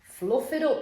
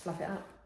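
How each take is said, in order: First: It is said in a put-on northern accent. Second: It is said in her ordinary accent.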